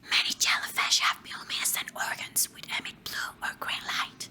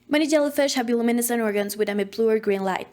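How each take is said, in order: First: It is read softly, like a secret. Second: It is read as fast as possible.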